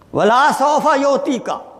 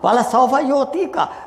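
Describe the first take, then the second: First: The vowel after the l is drawn out. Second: The vowel after the l is short. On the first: Something will not be given. The speaker calls it wrong. "even you prolong the sound, the mani meaning change totally" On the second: Something will be given very soon. The speaker calls it right. "lam with fataha is mean very soon"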